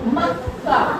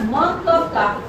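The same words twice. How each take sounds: First: The middle ka is pronounced very briefly. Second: The middle ka is pronounced as a full syllable. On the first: "आधा का बहुत ही जल्दी से पढ़ा" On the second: "यदि ये पूरा का होता तो हम इसे क्या पढ़ते"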